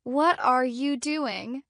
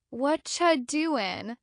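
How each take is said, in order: First: Slow, every word fully pronounced; careful full-form question, drawn out. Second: WHAT CHA merged into one casual "wotcha"; relaxed reduced "what cha doing"; natural chunk. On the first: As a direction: say each word separately and carefully. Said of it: "don't speak word by word". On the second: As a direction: run "what are you" together as "what cha". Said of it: "They speak in chunks". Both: Shown as a demonstration.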